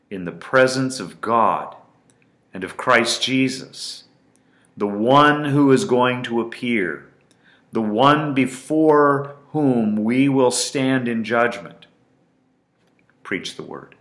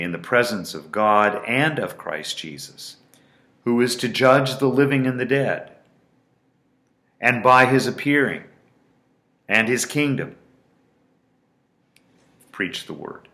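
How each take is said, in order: First: Emphatic scripture reading. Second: Solemn scripture reading. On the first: Shown as a demonstration. Preacher to listeners, reading Paul's charge with strongest emphasis. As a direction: proclaim it with full weight. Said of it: "with the strongest emphasis possible". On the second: Acted. Preacher reading Paul's charge to Timothy, solemn and building. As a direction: read the charge with rising force.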